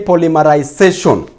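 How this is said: It is said with a British accent.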